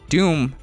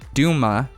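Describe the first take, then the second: First: The name is said as one syllable. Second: The name is said as two syllables. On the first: The speaker calls it wrong. "We've always said Doom" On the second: The speaker calls it right. "is pronounced Duma. There is no other way"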